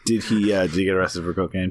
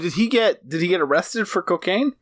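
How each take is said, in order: First: The question sounds calm and unsurprised. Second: The question sounds strongly surprised. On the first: The speaker calls it right. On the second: The speaker calls it wrong.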